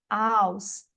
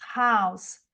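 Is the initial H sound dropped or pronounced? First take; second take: dropped; pronounced. First: The word starts without an H sound. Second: The word starts with a breathy H sound. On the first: "no Cockney ele é um H não aspirado" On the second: "tem som de R"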